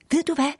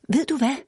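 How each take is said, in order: First: High, breathless and eager; excited gasp. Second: High, breathless repeat; eager gasp again. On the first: Girl gasps news to her mother. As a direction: blurt it out, bursting with news. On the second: Girl tugs mother's jacket, gasping excitedly. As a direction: press the news again, impatient. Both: A narrator's reading. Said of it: "gispede Annika".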